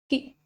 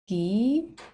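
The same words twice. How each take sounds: First: The vowel is short. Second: The vowel is long.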